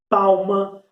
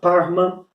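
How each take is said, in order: First: It is said with an L sound before m. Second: It is said with an R sound before m.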